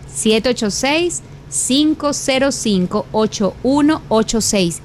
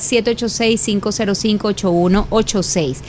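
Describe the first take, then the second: First: The number is said slowly. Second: The number is said at normal speed.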